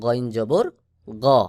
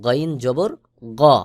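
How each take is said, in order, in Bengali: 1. শেষের স্বরধ্বনিটি একটি গোলাকার, 'o'-এর মতো শব্দ। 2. শেষের স্বরধ্বনিটি একটি গোলাকার, 'o'-এর মতো শব্দ।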